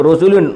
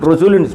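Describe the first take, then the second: Both takes have the same delivery.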